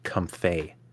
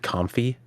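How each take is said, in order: First: The name ends with an 'ay' sound. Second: The name ends with an 'ee' sound. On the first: "the mix between the words comfy and lay" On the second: "I said comfy"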